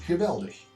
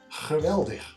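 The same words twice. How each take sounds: First: The G is a soft, airy sound. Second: The G is a harsh, raspy sound. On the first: This is how it is said south of the Rhine. "nice and soft below it" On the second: This is how it is said north of the Rhine. "sounds crude above the river"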